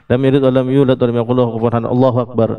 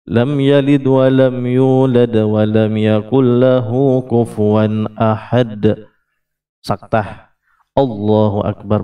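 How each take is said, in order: First: Allahu Akbar follows with no pause. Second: There is a pause before Allahu Akbar.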